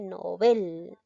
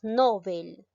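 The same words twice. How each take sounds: First: The stress is on the second syllable. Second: The stress is on the first syllable. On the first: The speaker calls it right. "En sí se dice novel" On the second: The speaker calls it wrong. "Muchos decimos novel"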